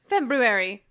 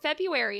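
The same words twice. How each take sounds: First: Both r sounds are clearly pronounced. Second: The first r sound is dropped. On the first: "but there's another R" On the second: "people are like, yeah"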